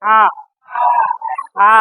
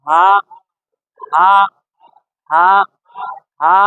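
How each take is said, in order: First: হা squeezed from the middle of the throat; pressed throat ha. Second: হা as a light puff of air from the mouth; airy breath ha. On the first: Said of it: "গলার মাঝখান থেকে চেপে আসবে". (গলা চেপে হা) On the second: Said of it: "যেন মুখ থেকে বাতাস বের হবে". (মুখ থেকে বাতাস ছেড়ে হালকা হা) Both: Shown as a demonstration.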